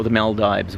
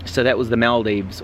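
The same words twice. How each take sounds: First: Maldives ending in dives like dive; Maldives, the dives version; Maldives said as MAL-dives. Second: Maldives with a long ee, MAL-deevz; first Maldives, the deevs version. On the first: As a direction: say Maldives rhyming with hives. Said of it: "whatever they call it". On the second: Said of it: "or the Maldives". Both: Shown as a demonstration.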